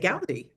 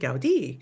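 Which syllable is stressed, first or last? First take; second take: first; last. First: The stress is on the first syllable. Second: The stress is on the last syllable. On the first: The speaker calls it wrong. "the inclination is to say Gaudí" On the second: The speaker calls it right. "he does have an accent on his I, so we pronounce it Gaudí"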